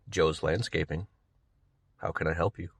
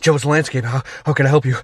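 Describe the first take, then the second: First: It sounds calm and composed. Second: It sounds flustered and out of breath.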